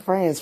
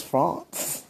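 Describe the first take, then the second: First: France said the plain English way, flat a; wrong France. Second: France with a nasal French ah vowel, fronce; fancy French France. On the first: Teasing partner again, English-sounding France. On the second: Teasing partner, laughing, saying France the French way. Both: Shown as a demonstration. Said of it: "Not France, France".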